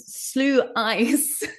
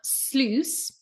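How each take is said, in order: First: It is split into two syllables, slew-ice. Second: It is one syllable, rhyming with juice. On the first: The speaker calls it wrong. "I pronounced it slew ice, but I was wrong" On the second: The speaker calls it right. "it's like juice"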